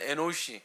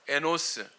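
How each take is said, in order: First: The name ends with a shi sound. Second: The name ends with an s sound. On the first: This is the original pronunciation of the name. "발음은 에노시" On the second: This is the familiar name in the Korean Bible. "이름 뭐예요? 에노스"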